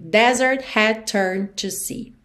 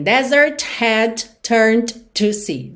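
First: Slow, linked "Desert had turned to sea" with final T and D held back; unreleased stops. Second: Every final T and D popped in "desert had turned to sea"; word by word, release each stop in "desert had turned to sea"; over-released consonants. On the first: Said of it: "uma aula de consoantes oclusivas". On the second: Teacher showing what to avoid, "desert had turned to sea" with every stop released. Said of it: "percebe que você não tem". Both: Shown as a demonstration.

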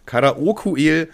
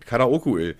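First: "Karaoke-El" drawn out slowly, every syllable stressed; slow emphatic name. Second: Said in the usual way. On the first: Shown as a demonstration. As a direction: stretch out "Karaoke-El" slowly, like a title.

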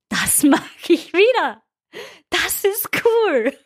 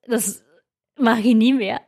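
First: Much higher, slow and beaming; elated. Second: Said in the usual way. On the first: Retold or imitated. Runner crossing the finish line, elated and higher. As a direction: savour the win, drawn out. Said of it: "und du denkst dir". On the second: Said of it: "denkst du dir".

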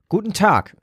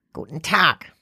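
First: Bright, higher friendly greeting. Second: Croaking. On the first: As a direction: greet him kindly and openly. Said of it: "erwiderte Saskia freundlich". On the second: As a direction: croak it out like an old shopkeeper. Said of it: "krächzte sie". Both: A narrator's reading.

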